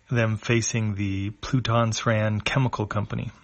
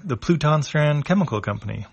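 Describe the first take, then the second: First: Said in the usual way. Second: Higher, brightly announcing the name; Chipu's voice. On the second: A narrator's reading. Chipu to the crew, higher announcing the company. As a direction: present the building like a tour guide.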